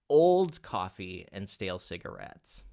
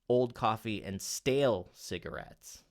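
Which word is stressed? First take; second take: old; stale. First: The word old is stressed. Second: The word stale is stressed. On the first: The coffee is not new. "let's say we accent the word old" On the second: The focus is on the type of cigarette. "what if you accent the word stale?"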